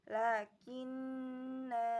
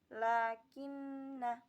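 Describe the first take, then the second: First: The final vowel is long. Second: The final vowel is short. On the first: The reading stops at this word. "Ketika waqaf dibaca panjang" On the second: The reading continues without stopping. "ketika wasol lafaz lakinna dibaca pendek, bunyinya seperti"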